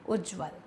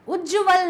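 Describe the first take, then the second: First: The middle 'ja' is reduced into a cluster. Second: The middle 'ja' is said as a full syllable. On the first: The speaker calls it right. "सही शब्द क्या है... दोनों जा आधे होंगे" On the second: The speaker calls it wrong. "उज्जवल नहीं होता, जा को अगर हम पूरा लिख देंगे"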